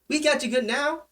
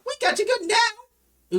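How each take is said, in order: First: The voice is pitched lower. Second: The voice is pitched too high.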